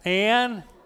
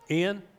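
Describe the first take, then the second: First: The name is said in an Oklahoma accent. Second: The name is said in a general accent.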